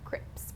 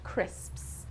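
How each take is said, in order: First: The word ends with a plain p-s cluster. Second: The word ends with an s-p-s cluster. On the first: The speaker calls it wrong. "mispronouncing them as crips" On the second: The speaker calls it right. "It's the sps sound at the end"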